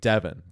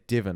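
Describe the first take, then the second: First: The name is said in a North American accent. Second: The name is said in a New Zealand accent. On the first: "in North America, I guess how would you say it? Like like Davin" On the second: "we say Devon in the New Zealand accent"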